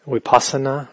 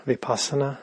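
First: Vipassana starting with a W sound, "wipassana"; "vipassana" begun as wi-, lips rounded; pronounced with W. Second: Vipassana starting with a V sound; "vipassana" begun as vi-, not wi-; pronounced with V. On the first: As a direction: say vipassana with an opening W. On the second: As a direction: say vipassana with a clear opening V, softer. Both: Shown as a demonstration. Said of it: "is often called".

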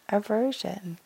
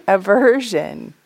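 First: Aversion dropped to a soft echo; soft repeat. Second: Aversion said loud and slow; emphatic naming. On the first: Teacher echoing the hindrance to the group, softly. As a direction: let Aversion fall away quietly. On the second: Teacher naming the hindrance to retreatants, loud and drawn out. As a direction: lean hard on Aversion, stretched out. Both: Shown as a demonstration.

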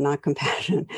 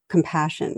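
First: Not lifted on a rise, then compassion with a laugh; stress on not. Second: Said in the usual way. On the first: Real, not acted. Correcting her own slip, stress on not. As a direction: lean on not with an amused laugh. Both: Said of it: "of passion, not compassion".

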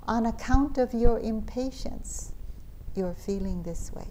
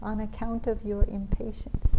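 First: Put-on light Indian accent, rising on account. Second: Put-on softer Indian accent repeat. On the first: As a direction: gently quote a teacher in an Indian accent. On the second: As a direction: echo the teacher lightly in an Indian accent. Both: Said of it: "in his Indian accent".

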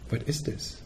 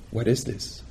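First: "What is this?" breathed out unvoiced, much softer and higher; whispered question. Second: Soft inquiry. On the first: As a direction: whisper the question "What is this?" as a curious inner inquiry. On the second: Retold or imitated. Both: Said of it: "she would say".

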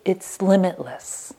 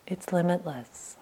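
First: Said in the usual way. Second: The second limitless dropped to a hush; quiet, awed echo; softly repeated. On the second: Shown as a demonstration. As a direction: let it fade almost to nothing.

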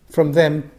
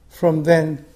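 Both takes have the same delivery.

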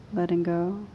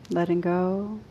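No difference in how they are said.

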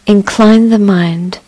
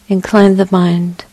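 The two takes are said the same way.

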